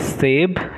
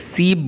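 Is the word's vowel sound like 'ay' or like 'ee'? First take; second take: ay; ee. First: The vowel is a mid 'ay' sound. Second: The vowel is a high 'ee' sound. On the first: This is how the word is said in Urdu and Hindi. "पहला है सेब" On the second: This is how the word is said in the language being taught. "यहाँ पर इसे सीब बोला जाएगा"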